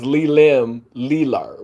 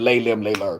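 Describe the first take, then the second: First: The syllables Le are said with an 'ee' vowel. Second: The syllables Le are said with an 'ay' vowel. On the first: This is how the name is spelled. "it's spelled Lee Lim Lee Lur" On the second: This is how the name is actually pronounced. "you pronounce it Lay Lim Lay Lur"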